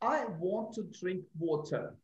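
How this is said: It is said in a British accent.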